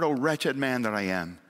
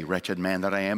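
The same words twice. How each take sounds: First: "Oh, wretched man that I am" as a sincere plea; mean every word of it, from the heart; the right way, a true cry for help; heartfelt cry. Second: "Wretched man that I am" said low and hollow, self-pitying; the wrong way, a false humble sigh; hollow piety. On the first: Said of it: "when the cry comes from the heart". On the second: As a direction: recite it as empty piety. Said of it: "in the wrong way". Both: Shown as a demonstration.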